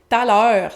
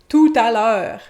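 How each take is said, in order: First: The phrase is squeezed together with sounds dropped. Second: The phrase is said fully with every syllable. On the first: "c'est une contraction" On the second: "c'est la contraction de"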